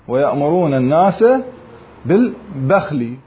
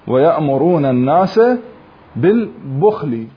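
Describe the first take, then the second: First: The last word has a after b. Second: The last word has u after b, no vowel after kh. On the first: "يفتح الباء" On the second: "بضم الباء وسكون الخاء"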